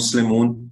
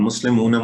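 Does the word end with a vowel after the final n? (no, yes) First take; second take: no; yes. First: The word ends on the n sound. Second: The word ends with an extra final a vowel. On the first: This is the easier everyday form. "आसानी के लिए वो ड्रॉप कर देते हैं" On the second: This is the full ending. "हम मुस्लिमूना मुस्लिमीना नहीं कहते"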